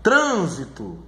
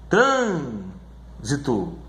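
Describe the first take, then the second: First: Said in the usual way. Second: Very slow "trânsito", long TRÂN then a pause; stress on first syllable. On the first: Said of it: "aquela que é a antepenúltima". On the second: Shown as a demonstration. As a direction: stretch TRÂN, then separate "sito". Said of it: "sílaba mais forte é essa daqui".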